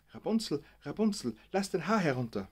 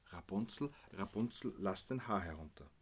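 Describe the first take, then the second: First: Higher and louder call, Rapunzel stretched out; said loudly. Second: Softly reading the sign's words, Rapunzel, lass den Haar herunter; read off quietly. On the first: Gabi leaning to the microphone, calling loudly. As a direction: call it up to the tower window, loud. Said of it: "und sagte laut". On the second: Gabi reading the sign to herself, quietly. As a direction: read the plaque half to herself, softer. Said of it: "Gabi las". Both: Retold or imitated.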